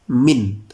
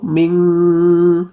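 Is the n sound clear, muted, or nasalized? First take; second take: clear; nasalized. First: The n is pronounced clearly without nasal hum. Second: The n is held with a nasal hum. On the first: The speaker calls it right. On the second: The speaker calls it wrong. "dengung ... salah"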